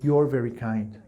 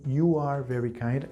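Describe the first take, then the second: First: The verb is contracted onto the pronoun. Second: The verb is said as a separate full word. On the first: "I can say" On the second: "Instead of saying"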